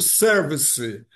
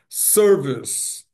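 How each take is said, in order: First: It is said with three syllables, adding a final vowel. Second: It is said with two syllables, stressed first. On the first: The speaker calls it wrong. "Aportuguesando service, nós pronunciamos erradamente, nós brasileiros, com três sílabas" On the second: The speaker calls it right. "acento na primeira sílaba"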